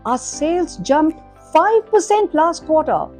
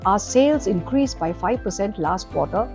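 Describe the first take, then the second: First: It is said with lively, varied pitch. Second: It is said in a flat monotone.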